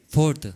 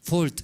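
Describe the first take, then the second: First: "Ford" with a tapped r and final t, foɾt; "Ford" pronounced properly with the r. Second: "Ford" said as fol, r dropped; "Ford" mispronounced as fol; Ford without r. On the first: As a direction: roll a light r in "Ford". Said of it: "Está bien, ¿no?". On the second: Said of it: "No R, ¿no?". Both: Shown as a demonstration.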